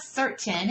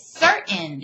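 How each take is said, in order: First: "certain" as SUR-ten, T fully sounded; rejected pronunciation. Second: "certain" as SUR'-n, T swallowed; insisted-on pronunciation. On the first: Teacher acting out the debate, "certain" with a full T. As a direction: release a crisp T in "certain". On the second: Teacher acting out the debate, "certain" with a swallowed T. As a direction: catch the T of "certain" in the throat. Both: Shown as a demonstration. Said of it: "It's not certain, it's certain".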